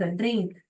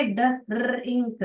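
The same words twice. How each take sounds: First: Said in the usual way. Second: ड्रिंक slowly split into d, rrr, ing, k; sounded out. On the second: Shown as a demonstration. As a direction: sound out ड्रिंक piece by piece, r rolled. Teacher sounding out the word.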